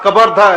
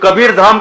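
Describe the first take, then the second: First: Vowels are shortened and the final sound is dropped. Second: Both words are said fully with all their sounds. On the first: This is how foreigners mangled the name. The speaker calls it wrong. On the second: This is the name's original form. The speaker calls it right.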